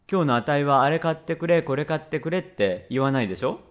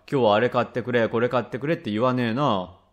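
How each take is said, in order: First: Put-on a little boy angling for praise, rising at the end; child's leading question, lightly acted; lightly voiced coaxing child. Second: Dad agreeing, falling at the end; father's echo, lightly acted; lightly voiced father. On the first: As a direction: lightly play a child fishing for agreement. Child coaxing his father. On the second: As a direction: lightly play a plain-spoken father conceding the point.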